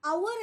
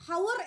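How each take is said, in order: First: അവർ with a silent h, opening on the vowel; അവർ, starting straight on the vowel; correct pronunciation. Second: ഹവർ with a sounded h at the start; ഹവർ, h pronounced; wrong pronunciation. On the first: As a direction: say അവർ with no h at all. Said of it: "പകരം അവർ എന്നാണ്". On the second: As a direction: say ഹവർ breathing out an h first. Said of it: "ഹവർ എന്നല്ല pronounce ചെയ്യുന്നത്". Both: Shown as a demonstration.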